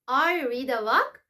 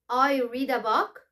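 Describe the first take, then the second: Both takes have the same delivery.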